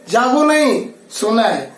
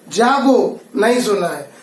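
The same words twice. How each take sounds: First: जागो नहीं as one phrase, then सोना है; pause after नहीं. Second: Slow जागो set apart, then नहीं सोना है together; pause after जागो. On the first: Teacher contrasts the other version, pausing after नहीं. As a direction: run जागो into नहीं, break before सोना है. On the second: Teacher reads one comma version, pausing after जागो. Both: Shown as a demonstration. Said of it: "दूसरे में".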